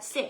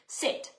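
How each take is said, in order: First: It is said as a firm, certain command. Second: It is said as a hopeful, rising request. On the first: The listener is expected to obey at once. The speaker calls it right. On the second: The speaker only hopes the listener will obey. The speaker calls it wrong.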